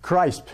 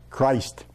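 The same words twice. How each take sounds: First: "crisp" drawn out slowly with a long i and p ending; distorted pronunciation. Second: "Christ" said the English way, ending in a clear st; English pronunciation. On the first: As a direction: deform Christ into "crisp", rhyming roughly with "ripe". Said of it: "vont déformer un petit peu". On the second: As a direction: say "Christ" in English, long i as in "ice". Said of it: "on dit ça comment?". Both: Shown as a demonstration.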